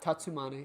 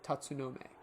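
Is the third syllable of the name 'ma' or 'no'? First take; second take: ma; no. First: The third syllable is pronounced 'ma'. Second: The third syllable is pronounced 'no'. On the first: The speaker calls it wrong. "Not Tatsumane" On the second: The speaker calls it right. "it's Tatsu Tatsunome"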